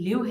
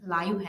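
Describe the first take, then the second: First: The vowel is short, as in 'give'. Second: The vowel is long, as in 'five'. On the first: To be alive, used as a verb. "एक उसकी pronunciation जो है उसकी लिव है" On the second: Having life, used as an adjective. "उसकी pronunciation लाइव है"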